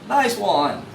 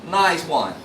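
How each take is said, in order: Both takes have the same delivery.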